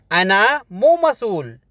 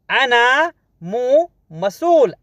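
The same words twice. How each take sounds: First: Said in the usual way. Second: "अना मो मसूल" drawn out slowly with "मसूल" lifted; slow, careful repeat. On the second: Shown as a demonstration. Teacher models the Arabic phrase slowly for students. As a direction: stretch each word of "अना मो मसूल" for learners.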